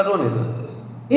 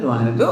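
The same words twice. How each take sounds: First: Very slow and soft; calm let her cry. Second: Said in the usual way. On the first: Retold or imitated. Preacher retells his calm advice to a mourner, slow and soft. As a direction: say it quietly, letting it be. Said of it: "मैंने कहा". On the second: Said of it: "मैं".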